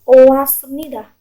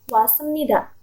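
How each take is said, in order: First: The two vowels o and a are said separately. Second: The two vowels merge into one wa sound. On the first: The speaker calls it wrong. "bukan oasmnida" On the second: The speaker calls it right. "pasti bacanya wasmnida"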